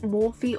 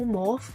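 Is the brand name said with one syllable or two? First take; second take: two; one. First: The name is said with two syllables. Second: The name is said with one syllable. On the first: "You can either pronounce it Morphe" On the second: "or Morph"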